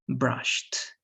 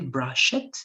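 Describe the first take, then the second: First: The ending is a plain t sound. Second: The ending is said as a separate syllable. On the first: The speaker calls it right. "It has to be brushed" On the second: The speaker calls it wrong. "you don't say brushed"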